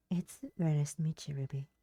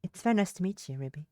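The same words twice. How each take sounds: First: Said in the usual way. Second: Put-on lightly British-accented greeting; slight British accent. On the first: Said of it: "Kelly doesn't have an accent". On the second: Kelly greeting the rescued girl, in a slight British accent. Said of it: "I keep giving Kelly an accent".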